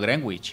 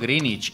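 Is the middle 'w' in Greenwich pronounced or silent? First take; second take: pronounced; silent. First: The middle w sound is pronounced. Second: The middle w sound is silent. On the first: The speaker calls it wrong. "y no Greenwich" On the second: The speaker calls it right. "yo digo Greenwich"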